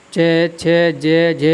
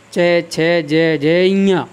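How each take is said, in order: First: च, छ, ज, झ recited in a steady row at normal pace; syllable drill. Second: च, छ, ज, झ drawn out very slowly, ending on a nasal ञा; slow syllable drill. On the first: Teacher reciting the च-row for the class. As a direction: list the letters evenly. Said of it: "इसी प्रकार आप इसको देखें". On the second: Teacher slowly repeating the row so students hear the nasal. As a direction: stretch each letter so the nose sound shows. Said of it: "जब मैं इञा बोलता हूँ तो हमारी ध्वनि कुछ नाक से निकल जाती है". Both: Shown as a demonstration.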